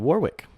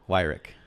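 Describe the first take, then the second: First: The first syllable sounds like 'war'. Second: The first syllable sounds like 'why'. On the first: The speaker calls it wrong. "I just said it wrong" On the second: The speaker calls it right. "It's Weirick"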